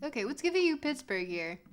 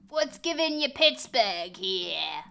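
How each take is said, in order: First: Said in the usual way. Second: A lower, louder goofy repeat of the question; mock put-on voice. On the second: Streamer mocking the question to chat in a goofy voice.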